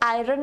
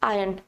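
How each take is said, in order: First: The r sound is pronounced in the word. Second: The r sound is left silent in the word. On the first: The speaker calls it wrong. "ये आयरन नहीं होता है" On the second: The speaker calls it right. "It's आयरन। आर is silent."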